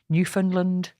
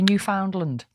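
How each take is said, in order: First: It is said with the local Canadian pronunciation. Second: It is said with the British pronunciation. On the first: This is how the locals say it. "hang on a minute. I can't quite do it" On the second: This is how people in the UK say it. "They don't say Newfoundland. That that's a U K thing"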